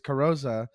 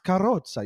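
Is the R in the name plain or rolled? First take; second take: plain; rolled. First: The R is plain, with a flat rhythm. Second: The R is rolled, with a bouncy rhythm. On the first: It is the simplified version used for English speakers. "it's just like an easier pronunciation specifically for like Canadians and Americans" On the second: It is the original family version. "You have to have like a little bit of a bounce. You have to throw in a rolled R"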